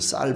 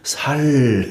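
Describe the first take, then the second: First: The word starts with a tense 's' sound. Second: The word starts with a plain 's' sound. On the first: The speaker calls it right. "쌀 해보라 그러면" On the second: The speaker calls it wrong. "쌀 발음이 안 돼가지고 살 이렇게"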